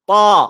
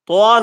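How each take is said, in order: First: The vowel is said with open, unrounded lips. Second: The vowel is said with rounded lips. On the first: The speaker calls it right. "মুখ গোল হবে না" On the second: The speaker calls it wrong. "তোয়া না"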